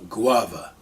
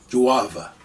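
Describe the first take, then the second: First: The word starts with a hard g sound. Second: The word starts with a j sound.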